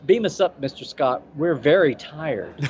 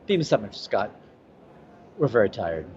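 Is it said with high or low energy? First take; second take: high; low. First: It is said with a lot of energy. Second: It is said with little, tired energy.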